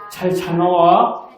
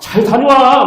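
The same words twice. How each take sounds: First: The voice rises softly at the end. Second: The voice falls bluntly at the end. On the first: The speaker calls it right. "끝을 올리는 거예요. 약간 부드럽게" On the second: The speaker calls it wrong. "막 이런 게 아니고요"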